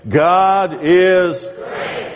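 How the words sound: It is said with strong, heartfelt conviction.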